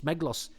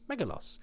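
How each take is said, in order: First: The name is said with two syllables. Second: The name is said with three syllables. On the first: "do they just not pronounce the the the uh in the middle then?" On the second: "you'd throw in an extra syllable to make it easier"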